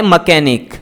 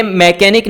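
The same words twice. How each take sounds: First: मैकेनिक said "muh-KE-nik" with a short reduced first vowel; the right मैकेनिक, first syllable a quick "muh"; correct pronunciation. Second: मैकेनिक said "meh-KE-nik" with a full open "e" in the first syllable; the mistaken मैकेनिक, first vowel fully pronounced; wrong pronunciation. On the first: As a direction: model the correct मैकेनिक, unstressed schwa then stress on "ke". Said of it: "ये होता है मैकेनिक". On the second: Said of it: "ये मैकेनिक नहीं होता है". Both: Shown as a demonstration.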